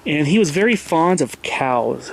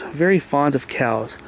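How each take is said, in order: First: Said in the usual way. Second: Very fond of cows, slower, leaning on very; slower emphatic repeat of very; slow stress on very. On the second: Shown as a demonstration. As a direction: drag out very for emphasis.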